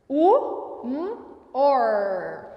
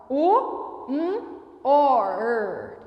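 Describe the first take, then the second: The two takes are said the same way.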